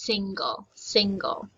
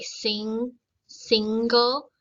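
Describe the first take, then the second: First: Single with both syllables clear, sing then gle; crisp, careful single; enunciated. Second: Single said loosely, the way people there say it; casual local way. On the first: Teacher to students, carefully enunciating single. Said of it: "pronounce it and enunciate it". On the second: Teacher showing students the everyday local single. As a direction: let single slide out casually. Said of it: "most people say". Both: Shown as a demonstration.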